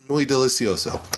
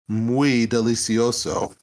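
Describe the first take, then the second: First: The phrase is said in a plain, ordinary way. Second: The phrase is said in an exaggerated, showy way. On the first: "I said it just like like normal" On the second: "I didn't say it like that"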